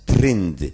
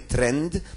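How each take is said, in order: First: The vowel is a closer 'y' sound. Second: The vowel is an open 'e' sound. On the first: The speaker calls it right. "ale prawidłowo, przynajmniej obecnie, należy wymawiać trynd" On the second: The speaker calls it wrong. "piszemy trend"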